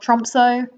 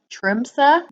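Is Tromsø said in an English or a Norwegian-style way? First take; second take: English; Norwegian. First: The name is said in an English way. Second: The name is said in a Norwegian-style way. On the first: The speaker calls it wrong. "which I understand is a horrible English way of pronouncing it" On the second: The speaker calls it right. "I believe this is pronounced Tromsø"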